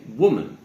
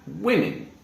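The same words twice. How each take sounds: First: WOMAN starting "wuh", as in "wood"; careful WOMAN with short "oo" first vowel; singular pronunciation. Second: WOMEN said "WIM-in"; short "i" in the first syllable of WOMEN; slow, careful WOMEN as "wimmin"; plural pronunciation. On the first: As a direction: say WOMAN as "WUU-mun". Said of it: "we would say woman". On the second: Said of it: "sounding more like an I". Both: Shown as a demonstration.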